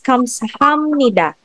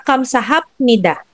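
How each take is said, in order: First: The consonant before nida is an m sound. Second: The consonant before nida is a p sound. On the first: The speaker calls it right. "it's kamsahamnida" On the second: The speaker calls it wrong. "Hindi siya kamsahapnida"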